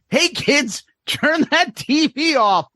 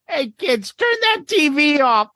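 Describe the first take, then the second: First: It is said in the speaker's normal voice. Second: It is said in a put-on character voice. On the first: The speaker calls it wrong. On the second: The speaker calls it right.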